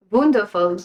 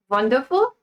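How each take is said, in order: First: Lower, falling German-accented "Wonderful"; mock German accent. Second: Trying out a German accent as a question; tentative German accent. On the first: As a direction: put on a firmer German accent, pitched down. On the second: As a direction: test a light German accent, rising at the end. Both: Shown as a demonstration. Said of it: "How do you say wonderful in German accent?".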